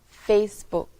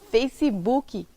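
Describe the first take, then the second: First: The word ends cleanly on the final consonant. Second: An extra i vowel is added at the end. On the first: The speaker calls it right. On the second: The speaker calls it wrong.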